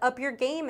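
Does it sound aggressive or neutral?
neutral. It is read in a neutral tone.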